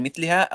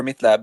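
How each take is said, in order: First: مثلها read MITH-li-ha, an i vowel on the lam; mithliha reading. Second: مثلها read MITH-la-ha, an a vowel on the lam; mithlaha reading. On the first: Debater asking about two readings, مثلها said as mithliha. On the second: Debater asking about two readings, مثلها said as mithlaha. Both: Shown as a demonstration. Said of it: "What's the difference between".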